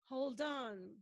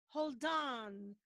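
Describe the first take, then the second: No difference in how they are said.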